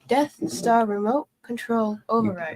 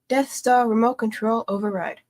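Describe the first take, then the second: First: It is said at a slower pace. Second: It is said at a faster pace.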